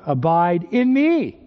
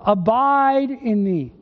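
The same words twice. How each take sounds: First: "Abide" said lightly, "me" punched and stretched; stress on ME. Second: "Abide" stretched out and higher, "in me" dropping away; stress on ABIDE. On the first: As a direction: save the weight for "in me". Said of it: "it should be the other way around". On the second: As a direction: lean hard on the verb "Abide". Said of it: "Usually we emphasize the verb". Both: Shown as a demonstration.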